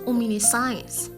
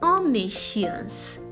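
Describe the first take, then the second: First: The word ends with the sound of 'science'. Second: The word ends without the sound of 'science'. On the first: The speaker calls it wrong. "There is no science in the word at all" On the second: The speaker calls it right. "It's a tetrasyllabic word"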